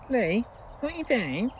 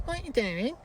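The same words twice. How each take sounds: First: Slow, high sing-song Lee what you doing; catchphrase drawl. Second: High, sing-song what you doing; catchphrase again. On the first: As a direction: stretch the catchphrase out teasingly. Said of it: "who moans about me saying". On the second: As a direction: tease with the same call. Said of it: "I don't like the way you say". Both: Retold or imitated.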